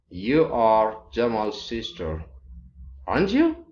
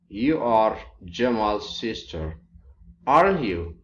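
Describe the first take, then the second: First: The pitch rises on the question tag. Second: The pitch falls on the question tag. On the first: The speaker is checking whether it is true. "you use a rising intonation to indicate uh, a checking question tag" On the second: The speaker is almost sure and expects agreement. "you can use a following intonation to indicate a confirming question tag"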